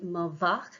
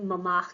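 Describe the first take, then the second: First: The noun begins with a v sound. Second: The noun begins with an m sound. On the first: The speaker calls it right. "it should be ma vach" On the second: The speaker calls it wrong. "mi hart"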